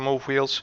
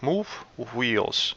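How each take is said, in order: First: The two words run together without a pause. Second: There is a short pause between the two words. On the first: The speaker calls it wrong. "try not to rush on this one. Just say" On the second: The speaker calls it right. "I'm just giving myself a, a bit of space between these two words, and it's it just sounds more natural"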